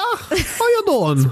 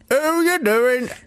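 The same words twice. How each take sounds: First: It is said in a Scottish accent. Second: It is said in a Cornish accent.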